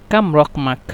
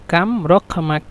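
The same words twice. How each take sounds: The two takes are said the same way.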